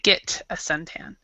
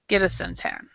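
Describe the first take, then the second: First: Spoken slowly, the t sounds like a t. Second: Spoken fast, the t sounds like a d. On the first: "slower, you would say" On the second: "when we speak it fast in fast speech, it might sound like a D"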